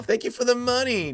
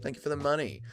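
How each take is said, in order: First: High-pitched hammed-up greedy voice; mock gloating. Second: Softly spoken gratitude; quiet thanks. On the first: Streamer pretending greed over a donation, high mock gloating. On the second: Real, not acted. Streamer thanking a viewer for a donation, quiet. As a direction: drop the volume and say it simply. Sincere thanks before mock gloating.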